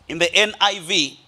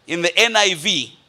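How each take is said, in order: Both takes have the same delivery.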